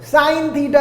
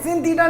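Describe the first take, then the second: First: The first word rhymes with 'line', a long vowel. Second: The first word rhymes with 'pin', a short vowel. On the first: The speaker calls it right. "साइन theta है वो guys" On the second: The speaker calls it wrong. "एक सिन theta नहीं है वो"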